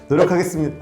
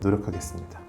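First: It is said strongly, with more vocal energy. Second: It is said weakly, with little vocal energy. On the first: The speaker calls it right. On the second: The speaker calls it wrong.

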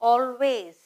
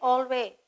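First: The consonants are pronounced strongly and clearly. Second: The consonants are pronounced weakly and loosely. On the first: The speaker calls it right. "I'm stressing all the consonants" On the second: The speaker calls it wrong. "If I just say always, that word doesn't make complete sense"

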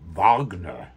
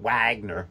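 First: The name begins with a V sound. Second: The name begins with an English W sound. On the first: The speaker calls it right. "but Wagner" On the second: The speaker calls it wrong. "It's not Wagner, like my best man, David Wagner"

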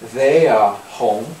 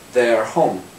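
First: It is said with a British accent. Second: It is said with an American accent. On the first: "можно сказать" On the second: "Или сказать по-американски"

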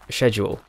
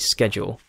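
First: The word is said the British way. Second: The word is said the American way. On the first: "us Brits say schedule" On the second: "Americans say schedule"

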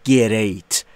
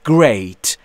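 First: An extra vowel separates the g and r. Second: The g and r join with no vowel. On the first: The speaker calls it wrong. "نباید بگیم great" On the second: The speaker calls it right. "اینجا صدایی وجود نداره"

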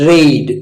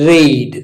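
Both takes have the same delivery.

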